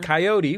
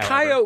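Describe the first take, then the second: First: It is said with a standard American pronunciation. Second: It is said in a folksy Old West style. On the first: "the American pronunciation" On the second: "that's the fun Old West way of saying it"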